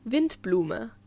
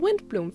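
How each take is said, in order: First: It is said with a German pronunciation. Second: It is said with an English-style pronunciation. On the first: The speaker calls it right. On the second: The speaker calls it wrong.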